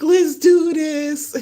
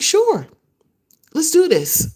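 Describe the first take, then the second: First: Slow triumphant echo. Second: High, bright mock enthusiasm from him; eager yes. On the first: Retold or imitated. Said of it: "I was like". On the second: Ken agreeing to come on the show, voiced high and eager. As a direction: imitate him jumping at the offer. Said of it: "he's like".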